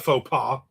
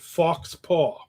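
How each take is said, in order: First: The first word is said like 'foe'. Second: The first word is said like 'fox'. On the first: The speaker calls it right. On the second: The speaker calls it wrong.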